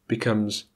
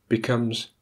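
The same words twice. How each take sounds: Both takes have the same delivery.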